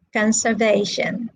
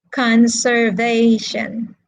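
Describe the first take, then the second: First: Said in the usual way. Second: "Conservation" drawn out slowly, stress on VA; slow, syllable-by-syllable "Conservation", leaning on VA; stress on third syllable. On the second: Shown as a demonstration. Teacher asks the class where the stress is, slow "Conservation" stressing VA. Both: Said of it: "Where is the stress?".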